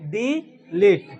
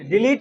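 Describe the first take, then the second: First: The first vowel is long, the second short. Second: The first vowel is short, the second long. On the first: The speaker calls it right. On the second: The speaker calls it wrong. "डिलीट नहीं"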